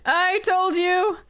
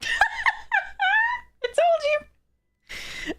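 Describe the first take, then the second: First: Exasperated exclamation; exasperated exclaim. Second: Drawn out very slow and very high, half laughing, half crying; stretched, laughing wail of despair. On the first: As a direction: snap it at the screen. Repeats at the screen. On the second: Wailing at another bad draw. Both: Real, not acted.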